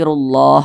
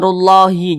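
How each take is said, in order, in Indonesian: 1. Kata ini berakhir pada konsonan h, tanpa vokal. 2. Kata ini berakhir dengan vokal tambahan setelah h. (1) "tapi rullah begitu" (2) "Jangan dibaca rullahi, jangan"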